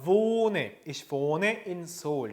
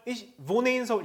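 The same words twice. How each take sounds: First: Wohne with a long "o", slowly; long vowel. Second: Wohne rushed with a short "o"; short vowel. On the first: Teacher correcting the short reading, long vowel. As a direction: draw out the "o" in wohne. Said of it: "이렇게 길게 읽어주셔야 됩니다". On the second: Teacher showing students the mistake, short vowel. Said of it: "이렇게 하지 않아요". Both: Shown as a demonstration.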